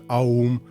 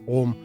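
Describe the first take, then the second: First: It starts with an a gliding into u. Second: It starts with a single plain o vowel. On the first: "хтось каже аум" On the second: "хтось каже ом"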